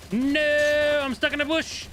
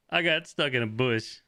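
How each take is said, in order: First: High squeaky falsetto whine; squeaky high complaint; whiny squeak. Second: Said in the usual way. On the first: Real, not acted. Stuck in a bush in game.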